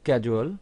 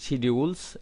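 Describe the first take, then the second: First: It is said with an American pronunciation. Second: It is said with a British pronunciation. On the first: "American স্টাইলের উচ্চারণ হচ্ছে" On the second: "British স্টাইলের উচ্চারণ হচ্ছে"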